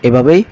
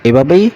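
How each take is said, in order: The two takes are said the same way.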